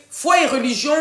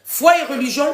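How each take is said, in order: Both takes have the same delivery.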